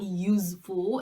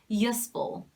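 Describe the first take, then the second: First: The middle consonant is a z sound. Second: The middle consonant is an s sound. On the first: The speaker calls it wrong. "Because it's not z. A lot of people say useful. It's not useful" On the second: The speaker calls it right. "it's useful"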